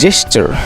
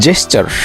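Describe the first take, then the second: Both takes have the same delivery.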